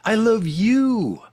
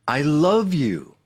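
First: The stress is on "you". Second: The stress is on "love".

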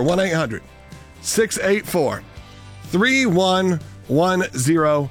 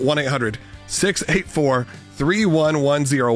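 First: The number is read at a slow pace. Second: The number is read at a quick pace.

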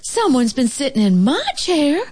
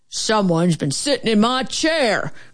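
First: It is said in a mild, medium-pitched voice. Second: It is said in a deep, grouchy growl.

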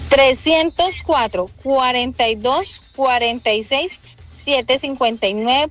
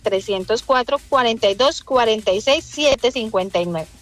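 First: The number is read more slowly. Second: The number is read at normal speed.

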